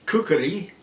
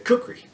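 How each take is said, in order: First: The word is said in full, with a middle K. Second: The word is said in a clipped, shortened form. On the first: This is the original pronunciation. "the actual pronunciation is kukri, with a K in the middle" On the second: This is the everyday shortened pronunciation. "that gets shortened to kukri"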